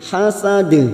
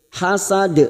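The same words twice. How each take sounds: First: The final d is bounced. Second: The final d is not bounced. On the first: The speaker calls it right. "kita pantulkan namanya qalqalah kubroh" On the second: The speaker calls it wrong. "jangan sampai seperti hasad, hasad ya, bukan seperti itu"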